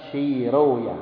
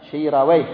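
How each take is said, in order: First: The name ends in an 'oya' sound. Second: The name ends in a 'weh' sound. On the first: This is the original Persian form. The speaker calls it right. "yang benar adalah Shiroya" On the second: This is the commonly used form. The speaker calls it wrong. "Kita mengatakan Shiraweh"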